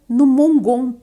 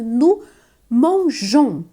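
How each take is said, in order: First: The verb has a hard g sound. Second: The verb has a soft g sound. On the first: The speaker calls it wrong. "porque senão ficaria no mongon, né? ... Ficaria estranho" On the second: The speaker calls it right. "Então é nous mangeons"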